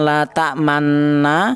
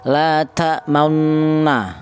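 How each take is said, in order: First: The vowel after m is a plain open a. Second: The vowel after m blends a with rounded lips. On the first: The speaker calls it wrong. "Jangan la ta'manna" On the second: The speaker calls it right. "ujung bibirnya mencucu"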